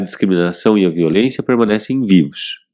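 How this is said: The phrase ends with a clear final fall. The idea is complete. The speaker calls it right. "Ponto, né? A gente fecha essa ideia"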